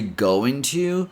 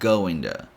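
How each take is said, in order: First: The word to has a full, clear o vowel. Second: The t in to sounds almost like d. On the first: "you can say going to" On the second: "change the T sound to almost a D sound"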